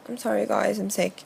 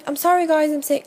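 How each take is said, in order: First: It is said in a sick, husky voice. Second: It is said in an ordinary, clear voice.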